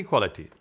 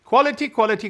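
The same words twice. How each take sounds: First: Said in the usual way. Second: High, loud, insistent quality, quality; hammed-up fussy designer demanding quality; imitating Gianni's emphasis. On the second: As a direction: mimic his passionate insistence on quality. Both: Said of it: "Johnny's thing was quality".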